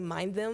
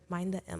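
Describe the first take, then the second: First: The M joins the word before it. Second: The final M is said as a separate letter. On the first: The speaker calls it wrong. "I just want to say mind them because that's what it looks like" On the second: The speaker calls it right. "It's underscore mind the M"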